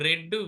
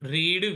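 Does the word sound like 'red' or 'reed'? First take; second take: red; reed. First: The vowel is short, like 'red'. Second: The vowel is long, like 'reed'. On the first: It is the past form of the verb. "ఆర్ఈఏడిని రెడ్గా పలకాలి" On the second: It is the present form of the verb. "వి వన్ రీడ్"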